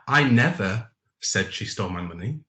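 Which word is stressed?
never. The stress is on the word never.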